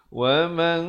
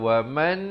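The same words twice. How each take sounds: First: The final n is a hidden nasal held two beats. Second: The final n is pronounced clearly and short. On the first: The speaker calls it right. "ikhfa' di sini dua harakat" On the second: The speaker calls it wrong. "Jangan baca wa man kafara, itu jadi bunyi izhar"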